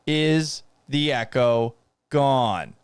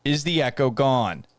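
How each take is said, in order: First: Slow, drawn-out question; weary, dragged-out asking; slow repeat. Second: Said in the usual way. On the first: Real, not acted. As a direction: stretch each word out in exasperation. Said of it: "repeats it slowly". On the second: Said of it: "repeats the question".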